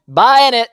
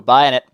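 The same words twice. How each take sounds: First: Higher, louder buying it; higher, louder excited. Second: Said in the usual way. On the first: Real, not acted. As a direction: announce the purchase with a cheer.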